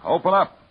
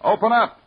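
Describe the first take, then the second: First: Higher, louder call through the door; demanding shout. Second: Higher still and louder, pressing harder; the second call, more urgent; louder demanding shout. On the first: Detective shouts at the locked cabin door, demanding. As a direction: order her to open, hard. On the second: Detective shouts again at the door, more urgent. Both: Acted.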